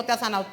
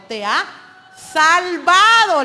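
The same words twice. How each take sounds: First: Said in the usual way. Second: Salvado drawn out slow and loud with a falling tone; stress on salvado. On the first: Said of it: "No le dijo". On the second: Shown as a demonstration. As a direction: land hard on "salvado", stretching it out. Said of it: "le dijo".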